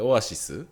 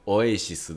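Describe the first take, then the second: First: It is said the plain Japanese way, "o-a-shi-su". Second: It is said the British way, "o-ei-shi-su".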